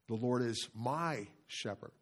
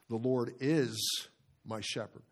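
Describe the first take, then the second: First: The stress falls on "my". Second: The stress falls on "is".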